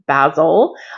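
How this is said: The word is said the British English way. "traditionally I'm English, and for me, the basil plant, it's pronounced basil"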